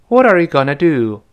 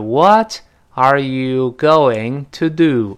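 First: It is said fast, with reduced forms. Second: It is said slowly, every word full.

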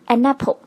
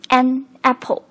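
First: The n runs straight into the next vowel. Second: The two words are said separately.

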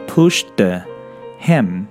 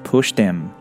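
First: The h sound of him is pronounced. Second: The h sound is dropped, linking the words.

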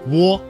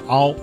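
First: A w sound comes before the o. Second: The vowel glides from a to o. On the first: "窝在哦这个单元音前面加了一个声母呜" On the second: "一个是由啊过渡到了哦"

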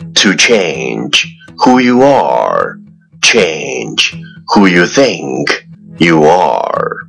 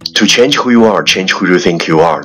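First: The sentence is spoken at a moderate speed. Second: The sentence is spoken very fast in one breath.

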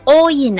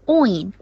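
First: It is split into two separate sounds. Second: It is blended into one single sound. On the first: The speaker calls it wrong. "不要读o in 啊，不是两个音" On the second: The speaker calls it right. "是一个音"

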